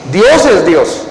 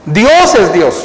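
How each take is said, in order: Both takes have the same delivery.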